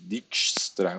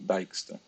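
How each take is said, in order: First: The name is said with the J sound pronounced. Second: The name is said with the J sound left silent. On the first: "mas tem gente que diz Dijkstra, o que torna mais difícil" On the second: "normalmente esse J aqui não é pronunciado"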